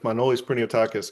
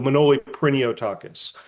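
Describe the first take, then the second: First: The first name ends with an s sound. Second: The first name ends without an s sound. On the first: This is the full Greek form of the name. "technically it's" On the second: This is the form used in English. "I go by"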